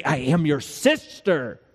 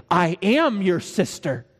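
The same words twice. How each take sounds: First: Slow line landing on "sister"; corrected emphasis on "sister". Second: Slow mock-meaningful reading stressing "am"; overdone emphasis on "am". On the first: Acted. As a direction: keep "am" lighter, draw out "sister". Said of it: "don't put emphasis on that. Say". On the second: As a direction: lean hard on "am", falling after. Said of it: "don't put emphasis on that".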